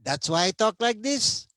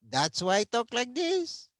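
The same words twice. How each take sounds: First: Put-on playful Filipino accent, pitched high; a jokey, self-mocking Filipino accent. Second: Hammed-up Filipino accent, pitched even higher; an overdone, comic Filipino accent; exaggerated Filipino accent. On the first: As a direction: tease your own heavy Filipino accent. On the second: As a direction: push the mock Filipino accent further. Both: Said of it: "with a bad Filipino accent".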